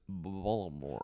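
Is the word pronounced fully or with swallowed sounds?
swallowed. Some sounds in the word are swallowed. "it's Baltimore"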